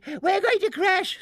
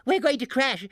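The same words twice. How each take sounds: First: Much higher, louder second scream; shrill scream. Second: High, loud panicked scream. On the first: Barnaby's mother at the height of panic, higher louder scream. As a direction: let the panic peak. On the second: Barnaby's mother panicking as the balloon falls, loud scream. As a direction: scream in terror. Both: A narrator's reading. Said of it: "screamed Barnaby's mother".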